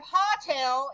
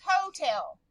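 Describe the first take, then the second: First: "hotel" said hah-tel, short o as in hot. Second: "hotel" said hoe-tel, o says its name; long o. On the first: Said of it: "So instead of hotel". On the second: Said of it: "this vowel says its name". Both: Shown as a demonstration.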